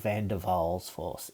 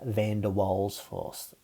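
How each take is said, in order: First: The name is said with a German pronunciation. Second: The name is said with a plain English pronunciation.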